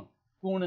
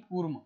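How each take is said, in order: First: The word ends with an n sound. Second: The word ends with an m sound. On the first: The speaker calls it wrong. "कूर्ण नहीं" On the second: The speaker calls it right. "कूर्ण नहीं कूर्म"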